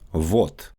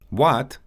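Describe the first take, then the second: First: It begins with a forward V sound. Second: It begins with an English W sound.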